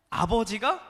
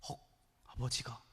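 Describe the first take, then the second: First: Said in the usual way. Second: Acted gasp, then low, soft disbelief; mock shock, voice dropping away; shocked reaction. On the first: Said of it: "팩트로만 딱 보고를 합니다". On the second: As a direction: echo it quietly, as if stunned. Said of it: "삼 단 충격을 받아요".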